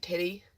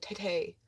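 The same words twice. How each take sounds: First: Said in the usual way. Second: "titty" said oddly, ending in "tay"; weird pronunciation. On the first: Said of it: "I didn't say it like that". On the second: Shown as a demonstration. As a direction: disguise "titty" as "tit-tay". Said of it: "I said it weird".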